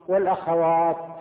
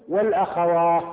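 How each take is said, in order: First: The word ends with a t sound. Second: The word ends with an h sound. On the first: "والأصل إيه؟ والأخوات بالتاء" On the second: "لكن هم وقفوا بالهاء فقالوا"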